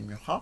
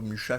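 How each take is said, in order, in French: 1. Le nom se prononce à l'originale, pas à la française. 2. Le nom se prononce à la française, comme d'habitude. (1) "mais c'est Mucha" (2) "qu'en général on prononce plutôt Mucha chez nous"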